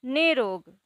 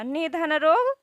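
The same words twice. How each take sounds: First: "निरोग" as one word with a long "nee", falling at the end; long ī, joined. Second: "निधन रोग" said in separate parts, pitch rising at the end; split-word reading. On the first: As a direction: join up "निरोग", stretching the first vowel to ee. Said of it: "बड़े ई की मात्रा". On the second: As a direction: read "निधन रोग" piece by piece, left open. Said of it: "छोटी ई की मात्रा है". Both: Shown as a demonstration.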